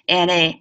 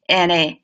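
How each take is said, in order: Both takes have the same delivery.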